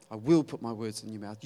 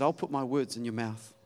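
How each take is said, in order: First: "will" spelled out and leaned on, not "I'll"; stress on will. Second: Said in the usual way. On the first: Shown as a demonstration. God insists he will put his words in Moses' mouth, stress on "will". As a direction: hit the word "will" firmly.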